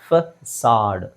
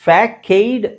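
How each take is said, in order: First: The middle consonant is an s sound. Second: The middle consonant is a k sound. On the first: The speaker calls it right. "Actually ಅದು ಉಚ್ಚಾರಣೆ ಫಸಾಡ್" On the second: The speaker calls it wrong. "ಫ್ಯಾಕೈಡ್ ಅಥವಾ ಫೇಕೈಡ್ ಅಂತ ಅನ್ಸ್ಬೋದು"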